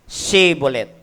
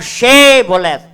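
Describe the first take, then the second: First: The word begins with a plain s sound. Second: The word begins with an sh sound. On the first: The speaker fails the password and is caught. The speaker calls it wrong. "Walang H" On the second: This is the password that lets someone pass. The speaker calls it right. "Yan ang password nila"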